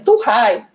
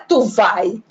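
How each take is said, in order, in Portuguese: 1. A segunda palavra começa com som de r. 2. A segunda palavra começa com som de v. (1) "o V é trocado pelo R" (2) "Não é tu vai"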